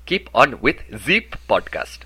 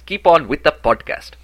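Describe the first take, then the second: First: Slow French accent, "the" said as "zee"; French-accented demo, turn "the" into a buzzing "zee". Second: Said in the usual way. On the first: Shown as a demonstration. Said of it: "turn your these into Z's". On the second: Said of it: "In French, you would say".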